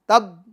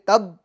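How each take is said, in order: No difference in how they are said.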